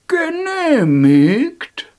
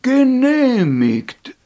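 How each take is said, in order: First: High, loud, slow, drawn-out granting; grand approval. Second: Slow, loud, drawn-out call; loud proclamation. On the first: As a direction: proclaim it slowly like a god. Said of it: "sagte der gelbe Alte". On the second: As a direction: call it out grandly. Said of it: "rief der gelbe Alte". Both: Acted.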